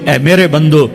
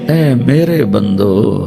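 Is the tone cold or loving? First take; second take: cold; loving. First: It is said in a plain, cold tone. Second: It is said in a warm, loving tone. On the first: The speaker calls it wrong. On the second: The speaker calls it right.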